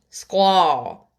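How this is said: It is said with a Japanese accent.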